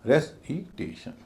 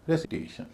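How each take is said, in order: First: रेसिटेशन slowly, broken into separate syllables; slow demo of रेसिटेशन with gaps between syllables. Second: Said in the usual way. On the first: Shown as a demonstration. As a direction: sound out रेसिटेशन beat by beat. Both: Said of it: "उसका उच्चारण फिर भारी हो जाएगा".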